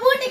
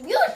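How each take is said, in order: First: The first syllable is 'boo' with no y-glide. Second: The first syllable is 'byoo' with a y-glide. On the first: The speaker calls it wrong. "అది బూటీ కాదు, బూటీ కాదు" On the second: The speaker calls it right. "బ్యూటీ బ్యూటీ"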